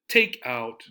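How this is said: The stress is on the first word. The speaker calls it right. "We stress the first part, the first word"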